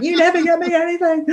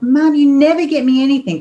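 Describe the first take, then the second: First: Higher mock whine on never; mimicking daughter. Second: Put-on high, louder whining child stressing never; whiny daughter. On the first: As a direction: parody of a sulky child. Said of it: "It's like". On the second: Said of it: "And she was like".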